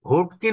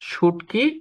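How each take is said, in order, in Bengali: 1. শব্দটি 'h' ধ্বনি দিয়ে শুরু হয়। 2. শব্দটি 'sh' ধ্বনি দিয়ে শুরু হয়। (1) "আবারও সে বলল হুটকি রান্না করেছে" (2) "অর্থাৎ সে বলেছে কিন্তু শুটকি"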